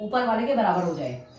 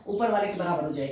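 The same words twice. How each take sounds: First: Said in the usual way. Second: "ऊपर वाले के बराबर हो जाए" repeated faster and lower; quick lower repeat. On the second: Shown as a demonstration. Teacher repeating the step for students, quicker and lower. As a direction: rattle it off again, quicker and lower.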